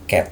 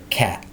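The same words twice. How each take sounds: First: The vowel is plain, lips not spread wide. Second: The vowel is open, lips spread wide. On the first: The speaker calls it wrong. "Jadi bukan cat" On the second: The speaker calls it right. "tapi cat"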